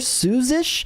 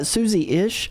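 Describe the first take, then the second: First: The name is said with two syllables. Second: The name is said with three syllables. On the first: The speaker calls it wrong. "I always call her Suzish" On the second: The speaker calls it right. "but I think it's Susie-ish"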